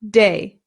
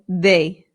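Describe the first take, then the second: First: The d is a hard English-style sound. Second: The d is soft, close to a th. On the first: "An English person would say de" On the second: "a Spanish person would say they"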